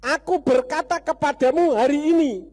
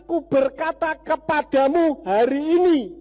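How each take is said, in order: Both takes have the same delivery.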